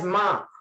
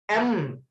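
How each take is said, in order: First: It begins with a consonant sound, like ma. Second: It begins with a vowel sound, like em. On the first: The speaker calls it wrong. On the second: The speaker calls it right.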